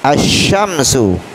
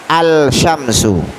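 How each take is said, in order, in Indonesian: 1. Bunyi L tidak terdengar, menyatu dengan sh. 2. Bunyi L terdengar jelas sebelum sh.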